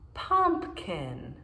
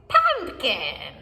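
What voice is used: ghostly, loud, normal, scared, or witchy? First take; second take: normal; witchy. First: It is said in a plain, normal voice. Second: It is said in a cackling witch voice.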